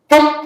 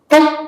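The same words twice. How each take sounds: The two takes are said the same way.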